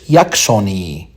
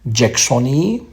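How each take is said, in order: First: The name is read with Latin sounds. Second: The name keeps its English sound. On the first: "you can read it in Latin" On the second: "because it was named after the Colonel Jackson"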